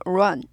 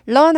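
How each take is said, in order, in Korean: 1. r은 빠르게 둥근 oo 소리로 시작해요. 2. r은 둥근 oo 소리 없이 시작해요. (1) "우 run인데요" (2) "run 아니고"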